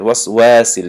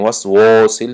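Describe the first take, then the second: First: وسواسل with a thin, light "wa", like "wæ"; thin waw. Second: وسواسل with a heavy, rounded "wo"; wrong thick waw. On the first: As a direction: keep the vowel of وسواسل fronted and light. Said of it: "تنک شدگی است". («وسواسل» бо вови тунук) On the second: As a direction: say وسواسل wrongly, darkened to "wosil". («وسواسل» бо вови ғафси нодуруст) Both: Shown as a demonstration.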